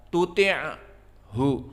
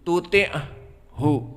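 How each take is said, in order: First: Breath escapes audibly on the ain sound. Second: Breath escapes audibly on the ain sound.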